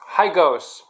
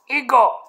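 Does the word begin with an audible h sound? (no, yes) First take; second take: yes; no. First: The word starts with an audible h sound. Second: The word starts with a vowel, no h. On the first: The speaker calls it wrong. "Most North Americans say Los Higos" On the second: The speaker calls it right. "Don't pronounce the H"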